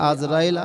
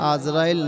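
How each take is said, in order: First: The name begins with an 'a' vowel. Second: The name begins with an 'a' vowel.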